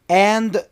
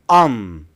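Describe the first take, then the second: First: The word is said in its full form. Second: The word is reduced to sound like 'on'. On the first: "And becomes in or on" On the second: "or on"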